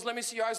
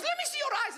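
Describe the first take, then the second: First: Said in the usual way. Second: Very high suspicious mom voice; high-pitched mock maternal interrogation; strict immigrant mother. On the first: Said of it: "someone goes". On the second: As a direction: demand it as an alarmed immigrant mother. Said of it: "And my mother goes".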